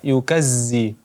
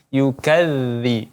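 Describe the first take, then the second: First: The dh consonant is pronounced thick and harsh. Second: The dh consonant is pronounced thin and soft. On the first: The speaker calls it wrong. "tidak yukazzi" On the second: The speaker calls it right. "bunyinya sangat lembut, tidak yukazzi tapi yukazzi"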